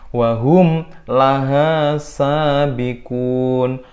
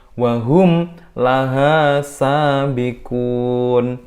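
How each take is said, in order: No difference in how they are said.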